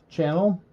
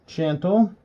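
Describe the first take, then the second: The two takes are said the same way.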